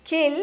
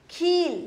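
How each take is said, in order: First: खिल with a short i; short vowel. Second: खील with a long ee; खील, vowel held long. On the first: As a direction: keep खिल brief on the vowel. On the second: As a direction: draw out the ee in खील. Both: Shown as a demonstration. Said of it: "उस सुर को लंबा खींचेंगे".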